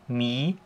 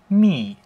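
First: The pitch rises toward the end. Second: The pitch falls sharply downward. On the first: "ein ansteigender Strich, genauso wie der Tonverlauf auch ist" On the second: "beim vierten Ton ist es halt ein abfallender Strich"

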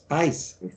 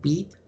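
First: The word ends in an s sound. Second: The word ends in a t sound. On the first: "Die sprechen Beiß aus" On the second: This is the standard classical pronunciation. "sagen die zum Beispiel nicht Bet"

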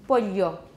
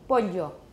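Both takes have the same delivery.

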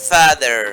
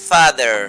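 No difference in how they are said.

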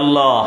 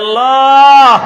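First: The word is said at a moderate loudness. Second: The word is shouted at full volume. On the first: "সকলেই বলি" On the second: "চিল্লায় বলি"

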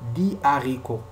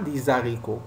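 First: The s of des is silent before the next word. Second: The s of des links into the next word. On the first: The speaker calls it right. "on dit dit haricot. Il ne faut pas faire la liaison ici" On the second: The speaker calls it wrong. "On ne dit pas"

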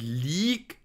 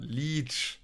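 First: The word ends in a short g sound. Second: The word ends in a long drawn-out sh sound. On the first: The speaker calls it wrong. "Nicht League" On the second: The speaker calls it right. "sondern Leech. Ganz wichtig, hinten schön das SCH langziehen"

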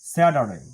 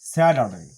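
No difference in how they are said.

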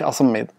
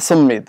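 First: The word begins with an added vowel. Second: The word begins directly with a consonant. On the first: The speaker calls it wrong. "مش اصمد" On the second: The speaker calls it right. "لاحظوا معي"

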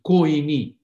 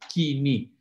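First: The first vowel is a two-sound diphthong. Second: The first vowel is one single sound. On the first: This is the Erasmian pronunciation. "They Erasmus, pronounced it Koini" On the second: This is how it is pronounced today. "we call it Kini"

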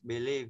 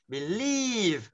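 First: The stressed syllable is said weakly, without push. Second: The stressed syllable is pushed out strongly. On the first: The speaker calls it wrong. "Chứ không phải đọc là believe" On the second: The speaker calls it right. "Đấy mà believe, nhấn nào"

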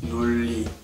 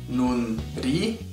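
First: The syllables join with a double l sound. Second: The first syllable ends in an n sound. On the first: The characters are read together as one word. "together they become" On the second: Each character is read on its own. "Separately, the characters are pronounced as"

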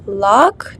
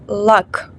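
First: The vowel is held long. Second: The vowel is clipped short. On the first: The speaker calls it wrong. "Не лак" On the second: The speaker calls it right. "голосна перед ці к читається коротко"

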